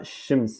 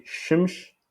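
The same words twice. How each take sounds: First: "shims" ending in a crisp s; sh at the start, s at the end of "shims"; variante standard. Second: "shimsh" with sh at both ends; variante régionale. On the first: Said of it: "et il y a shims". (« shims » avec s final) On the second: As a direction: regional "shimsh", final s turned to sh. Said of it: "une zone au Maroc qui dit". (« shimsh » avec ch final) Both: Shown as a demonstration.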